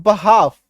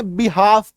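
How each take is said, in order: First: बहाफ with a short "ba" opening, no L; correct behalf pronunciation. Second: बिहाफ with a "bi" opening, drawn out; common mispronunciation. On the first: Teacher giving students the correct word, "ba-haaf". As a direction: say बहाफ, "ba" then long "haaf". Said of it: "इसका उच्चारण क्या होता है". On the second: Teacher showing how many people misread it, "bi-haaf". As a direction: say बिहाफ, "bi" then long "haaf". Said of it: "कई सारे लोग इसको क्या पढ़ेंगे". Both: Shown as a demonstration.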